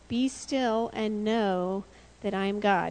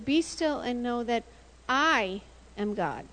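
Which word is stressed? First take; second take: God; I. First: The sentence is read with ordinary even emphasis. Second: The word I carries strong emphasis. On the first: Being still brings knowledge of God. "Psalm 46:10 says" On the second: God is in charge, not the listener. "God put the emphasis on a different part"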